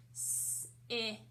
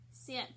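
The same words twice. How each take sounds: First: "Sip" split into a long hissed s, then ip; sounded out. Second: Said in the usual way. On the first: Shown as a demonstration. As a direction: hold the s of "Sip", pause, then add ip. Teacher breaks word into sounds.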